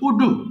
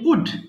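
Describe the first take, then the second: First: An extra vowel sound follows the final d. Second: The word ends cleanly on the final d. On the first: The speaker calls it wrong. "তুমি বলেছো উডু। উডু হবে না" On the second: The speaker calls it right. "Simply উড বলবা"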